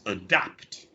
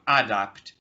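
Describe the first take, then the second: First: The first vowel is a weak, barely heard schwa. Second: The first vowel is a full, clear vowel. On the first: The speaker calls it right. "it's a schwa at the beginning" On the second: The speaker calls it wrong. "it's not adapt"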